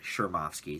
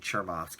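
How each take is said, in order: First: The name begins with an 'sh' sound. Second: The name begins with a 'ch' sound. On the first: It is how the name is said on the show. "they pronounce it on the show" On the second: It follows the spelling of the name. "I've been saying Chermovsky because it, it is a C H"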